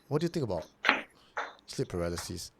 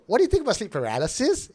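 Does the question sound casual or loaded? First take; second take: loaded; casual. First: The question is asked in a heavy, loaded way. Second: The question is asked in a light, casual way. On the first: There is a hidden point behind the question. "sounded loaded" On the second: It is an innocent, open question. "the question doesn't sound like"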